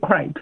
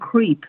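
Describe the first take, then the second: First: The vowel is a short e sound. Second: The vowel is a long ee sound. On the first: It names the thin pancake. The speaker calls it right. "所以就记住这个发音是crepe" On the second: It sounds like a word for an unpleasant person. The speaker calls it wrong. "你可能会把它发音发成creep"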